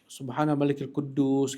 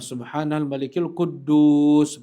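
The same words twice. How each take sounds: First: It is drawn out at normal loudness. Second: It is drawn out with a raised voice. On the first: "gitu diperpanjang" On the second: "kemudian lebih diangkat lagi suaranya di yang ketiga"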